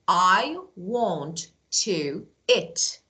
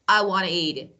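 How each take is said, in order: First: It is said slowly, every word full. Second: It is said fast, reduced to wanna.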